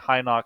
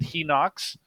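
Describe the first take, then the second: First: The first syllable is said like 'high'. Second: The first syllable is said like 'he'. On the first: This is the speaker's own habitual reading. "that's just my Western" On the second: This is how the other person says it. "you pronounce it Hinox"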